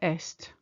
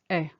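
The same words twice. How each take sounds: First: The final T sound is pronounced. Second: The final T sound is silent. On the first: It means east. The speaker calls it wrong. "We never say est" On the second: It means he is. The speaker calls it right. "It's est"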